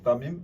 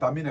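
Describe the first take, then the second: First: The name ends with an m sound. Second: The name ends with an n sound. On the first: The speaker calls it right. "തമീമാണ്" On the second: The speaker calls it wrong. "തമീൻ അല്ല"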